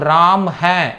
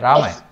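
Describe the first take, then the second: First: 'Hai' is said clearly as its own syllable. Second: 'Hai' is blended into the name as one word. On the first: "అని మనం పలుకుతాం చక్కగా" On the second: "మాట్లాడేటప్పుడు ఏమంటారు?"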